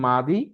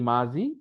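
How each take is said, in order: First: The middle consonant sounds like a d. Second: The middle consonant sounds like a z. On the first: "দ উচ্চারণ" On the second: "জ উচ্চারণ হয়"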